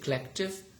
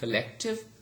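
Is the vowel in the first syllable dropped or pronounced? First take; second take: dropped; pronounced. First: The first syllable's weak vowel is dropped. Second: The first syllable keeps its weak vowel. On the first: "we say collective. So schwa sound has elided" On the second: "Instead of saying collective"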